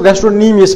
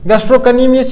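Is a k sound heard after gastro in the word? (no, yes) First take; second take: no; yes. First: No k sound is heard after gastro. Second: A k sound is heard after gastro. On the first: The speaker calls it right. "इसको गैस्ट्रोनीमियस पढ़े, सी is silent" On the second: The speaker calls it wrong. "इसको नहीं पढ़े"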